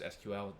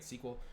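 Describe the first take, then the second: First: Each letter is said separately. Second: It is said as a single word. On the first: "call it just S Q L. You pronounce the letters" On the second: "instead of calling it S Q L"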